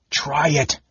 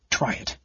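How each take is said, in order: First: Higher, firm command; ordered. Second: Much softer hushed dare; whispered. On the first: Raistlin commanding Caramon to strike, firm order. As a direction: order it, no hesitation. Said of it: "Raistlin ordered again". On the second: Raistlin staring at his brother, hushed dare. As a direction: breathe the challenge. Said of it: "he whispered". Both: A narrator's reading.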